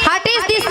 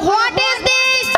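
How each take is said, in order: First: It sounds like 'hatis dis', run together. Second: It sounds like 'what is this', words separate. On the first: The speaker calls it wrong. "মাসি হাটিস দিস নয়" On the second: The speaker calls it right. "বলো হোয়াট ইজ দিস"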